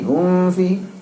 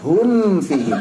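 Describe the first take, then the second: First: The m before f is hidden and nasalized. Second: The m before f is pronounced clearly. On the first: The speaker calls it wrong. "Jangan jadi ikhfa" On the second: The speaker calls it right. "Mimnya jelaskan"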